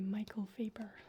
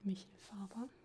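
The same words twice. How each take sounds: First: The name is pronounced in a plain English way. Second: The name is pronounced in a German way. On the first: "But it might just be" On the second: "the name sounds German, so I'm just gonna uh, pronounce it"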